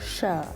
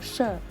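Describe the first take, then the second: First: The syllable is said in tone three, low. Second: The syllable is said in tone four, falling. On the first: "เสียงสามเอก" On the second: "เสียงสี่ไม้โท"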